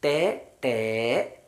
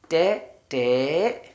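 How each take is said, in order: First: ടേ, ടേ stretched out very slowly; teacher modelling ടേ, ടേ slowly; very slow sound demo. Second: Said in the usual way. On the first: Shown as a demonstration. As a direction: draw out ടേ, ടേ syllable by syllable. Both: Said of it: "T E ആണ് വരുന്നതെങ്കിൽ".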